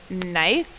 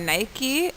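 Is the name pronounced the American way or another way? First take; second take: another way; American. First: The name is said in a non-American way. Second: The name is said the American way.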